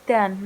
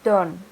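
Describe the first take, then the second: First: Done with a short uh vowel; correct done. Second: Done with an o vowel; wrong done. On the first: Teacher giving the right done. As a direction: done said like dun. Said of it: "pronounce done". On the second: Teacher showing the wrong done. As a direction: done said like don. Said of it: "not done". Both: Shown as a demonstration.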